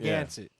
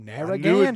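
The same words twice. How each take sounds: First: The R sounds are dropped, syllables run together. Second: Every syllable and R sound is fully pronounced. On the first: This is how locals say it. "All those R's and all that is just" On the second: This is how an outsider says it. "But I pronounce every syllable"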